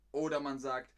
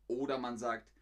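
Both takes have the same delivery.

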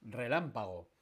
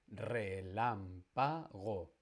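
First: Said in the usual way. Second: Relámpago very slowly as re-lám-pa-go; syllable by syllable. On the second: Shown as a demonstration. Teacher hunting for the stressed syllable, Relámpago split slowly into syllables. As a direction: separate all four syllables of Relámpago. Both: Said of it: "La tónica está en".

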